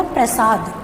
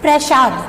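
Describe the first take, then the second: First: प्रसाद said with a crisp s; correct pronunciation. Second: प्रसाद said with sh, प्रशाद; wrong pronunciation. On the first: Teacher to students, modelling the s in प्रसाद. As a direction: say प्रसाद with a clean s, not sh. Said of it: "यहाँ पर सही होगा प्रसाद". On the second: Teacher to students, showing the wrong sh in प्रसाद. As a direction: show प्रसाद with a hushed sh sound. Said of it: "श नहीं आएगा". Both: Shown as a demonstration.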